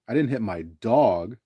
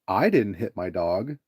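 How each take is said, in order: First: The stress falls on the word dog. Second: The stress falls on the word I. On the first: Someone other than the dog was hit. "then it implies, well, who did you hit" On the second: Someone else hit the dog. "if you emphasize the "I" when you say that"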